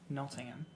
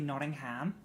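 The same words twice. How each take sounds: First: The last syllable is a reduced 'hum'. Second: The last syllable is a full 'ham'. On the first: This is how local people say the name. The speaker calls it right. "but it's uh, Nottingham" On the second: This is how Americans say the name. The speaker calls it wrong. "Americans say Nottingham"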